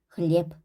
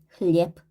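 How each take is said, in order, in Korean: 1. 이 단어는 짧고 무성음인 'p' 소리로 끝납니다. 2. 이 단어는 짧고 무성음인 'p' 소리로 끝납니다.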